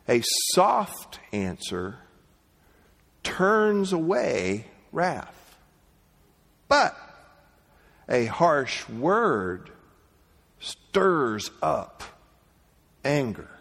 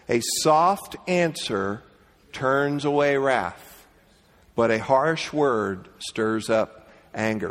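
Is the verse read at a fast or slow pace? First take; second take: slow; fast. First: The verse is read slowly and deliberately. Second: The verse is read at an ordinary pace.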